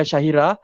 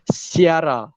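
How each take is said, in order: First: It is said with three syllables, shahira. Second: It is said as si-ara, with separate vowels. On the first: The speaker calls it wrong. "bukan Syahira" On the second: The speaker calls it right. "tapi Siara"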